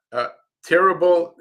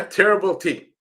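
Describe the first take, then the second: First: Said in the usual way. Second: Chuckling through the name terrible T; laughing. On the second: Real, not acted. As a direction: laugh while saying terrible T. Laughs at the username.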